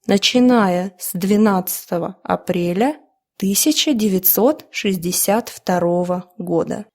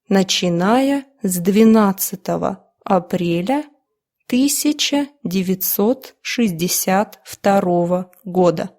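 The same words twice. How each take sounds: First: It is read at a faster, more fluent pace. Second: It is read at a slow, careful pace.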